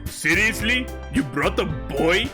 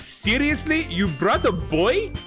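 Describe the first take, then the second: First: The voice is pushed as low as possible. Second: The voice is at a higher, less extreme pitch.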